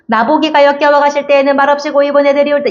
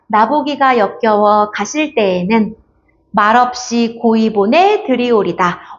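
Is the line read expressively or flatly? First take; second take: flatly; expressively. First: It is read flatly, without feeling. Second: It is read expressively, with feeling.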